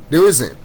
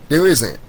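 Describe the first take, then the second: No difference in how they are said.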